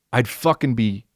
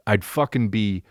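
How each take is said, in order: Both takes have the same delivery.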